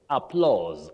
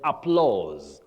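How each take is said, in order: First: The vowel sounds like 'aw' in law. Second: The same.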